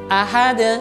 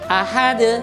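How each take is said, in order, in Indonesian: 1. Huruf d terakhir berakhir dengan pantulan. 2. Huruf d terakhir berakhir dengan pantulan.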